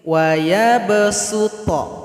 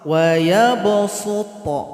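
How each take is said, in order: First: The s sound is a plain, light s. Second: The s sound is a heavy, emphatic s. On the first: "Kalau dengan sin" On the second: "Kalau dengan shad"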